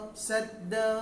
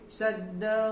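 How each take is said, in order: First: The final waw sound is only half pronounced. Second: The final waw sound is only half pronounced.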